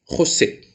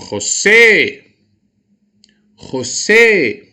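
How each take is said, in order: First: Said in the usual way. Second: Loud, high call with a drawn-out SÉ in "José"; long, swooping shout on the final syllable of "José"; calling at the gate. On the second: Shown as a demonstration. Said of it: "Vou chamá-lo no portão".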